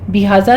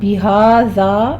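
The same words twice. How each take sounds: First: The vowels are said short and clipped. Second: The vowels are held long for two counts. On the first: The speaker calls it wrong. "नहीं कहना" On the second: The speaker calls it right. "टू टू count करना है"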